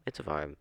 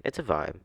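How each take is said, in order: First: "It's a vibe." said again much softer, trailing off; "It's a vibe." murmured as a soft afterthought; softer echo. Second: Said in the usual way. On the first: Shown as a demonstration. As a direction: repeat "It's a vibe." quietly to yourself.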